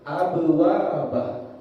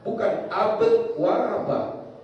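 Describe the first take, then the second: First: The b ends with a light, small echo. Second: The b ends with a strong, separated echo. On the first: The speaker calls it right. "Sehingga bunyinya lebih kecil" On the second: The speaker calls it wrong.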